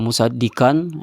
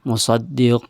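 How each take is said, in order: First: The final 'n' is clearly pronounced. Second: The final 'n' is dropped and merged away. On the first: The speaker calls it wrong. "bukan musaddiqan" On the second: The speaker calls it right. "dia dilebur ke huruf lam"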